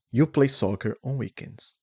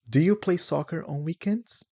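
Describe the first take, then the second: First: Plain statement, dropping on "weekends"; affirmative falling tune. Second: Higher question, climbing on "weekends"; lifted question tune ending high on "weekends"; interrogative rising tune. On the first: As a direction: let "weekends" fall as a statement. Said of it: "So it's affirmative". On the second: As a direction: raise your voice to ask, up on "weekends". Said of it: "To make it interrogative". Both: Shown as a demonstration.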